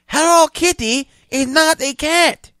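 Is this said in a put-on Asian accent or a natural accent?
Asian accent. It is read in a put-on Asian accent.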